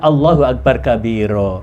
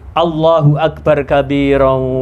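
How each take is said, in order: First: The word stops on a long final vowel. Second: The word ends in a nasal linked onward. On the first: "Lek diputus berarti mat iwat" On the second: "Lek di idgham digunakan disambung nggih"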